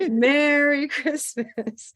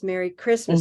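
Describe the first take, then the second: First: The stress falls on the first word. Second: The stress falls on the second word. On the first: It is a festive, Santa-like greeting. "if they're dressed as Santa" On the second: It is an ordinary greeting to a friend. "with stress on the second word"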